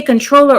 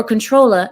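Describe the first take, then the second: First: Said in the usual way. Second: "controller" said as "controlla"; Southern-style R-less "controller"; dropped ER ending. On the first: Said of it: "If I say controller or controller". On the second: Shown as a demonstration. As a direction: end "controller" on an open "ah" without the R. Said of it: "drop the E R and put an A".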